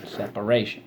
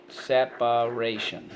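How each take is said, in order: First: Said in the usual way. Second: Slow, even SEP-A-RAY-SHUN for "Separation"; syllable by syllable. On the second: Shown as a demonstration. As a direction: sound out "Separation" in four distinct beats. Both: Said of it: "so let's go".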